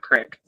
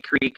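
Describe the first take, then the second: First: The vowel is a short 'i' sound. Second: The vowel is a long 'ee' sound. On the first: The speaker calls it wrong. "not Crick" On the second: The speaker calls it right. "it is definitely Creek"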